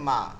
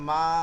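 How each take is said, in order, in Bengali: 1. স্বরধ্বনিটি ছোট ও সাধারণ। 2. স্বরধ্বনিটি টেনে দীর্ঘ করে বলা হয়েছে। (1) "মা কাছে থাকলে মা" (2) "ওই যে আ হয়ে যায়"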